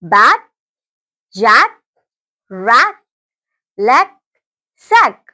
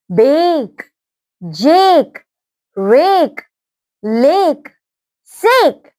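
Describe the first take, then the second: First: "बैट, जैक, रैट, लेग, सैक" with short open A, as in back; short-vowel drill on "बैट, जैक, रैट, लेग, सैक", pausing after each; short A sounds. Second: "बेक, जेक, रेक, लेक, सेक" with a stretched ay, as in cake; long-vowel drill on "बेक, जेक, रेक, लेक, सेक", each held long; long A sounds. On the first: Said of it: "short sound". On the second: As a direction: say "बेक, जेक, रेक, लेक, सेक" as bake, Jake, rake, lake, sake. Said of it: "ये थे आपके long sound". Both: Shown as a demonstration.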